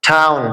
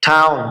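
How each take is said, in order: The two takes are said the same way.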